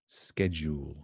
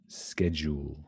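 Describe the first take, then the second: No difference in how they are said.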